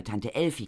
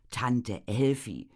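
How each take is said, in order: First: Said in the usual way. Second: "Tante Elfi" said slowly, each word drawn out; "Tante Elfi" stretched long and heavy; Tante Elfi lingered. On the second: A narrator's reading. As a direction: drag out "Tante Elfi" ominously. Name repeated with weight.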